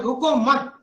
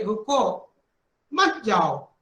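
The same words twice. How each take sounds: First: "रुको मत" run together as one unit; no break after "रुको", join it straight to "मत"; pause after मत. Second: "रुको", clear stop, then "मत जाओ"; pause after रुको. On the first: Teacher moving the comma, "रुको मत" joined, break after "मत". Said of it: "मत के बाद लगा दिए". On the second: Teacher showing the comma means stop, pause after "रुको". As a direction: break right after "रुको", keep "मत जाओ" together. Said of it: "जब आप कामा लगा देंगे". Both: Shown as a demonstration.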